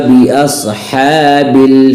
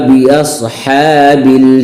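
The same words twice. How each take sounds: Both takes have the same delivery.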